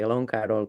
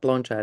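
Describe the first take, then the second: First: The name is pronounced in an anglicized way. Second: The name is pronounced the Serbian way. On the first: This is how others usually say the name. "we've been pronouncing her name, but it's okay" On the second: This is the name's native pronunciation. "is quite uh, Serbian"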